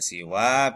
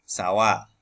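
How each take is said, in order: First: The first vowel is i. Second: The first vowel is a.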